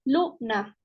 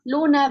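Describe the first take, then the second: First: "Luna" said as two syllables, Lu-na; "Luna" syllable by syllable, teacher demonstrating; split into syllables. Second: Said in the usual way. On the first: Shown as a demonstration. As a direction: break "Luna" into Lu, then na. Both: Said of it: "Tenemos aquí algunos ejemplos".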